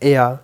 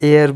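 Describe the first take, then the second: First: The word ends with a schwa glide. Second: The word ends with an r-like sound. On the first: The speaker calls it right. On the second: The speaker calls it wrong.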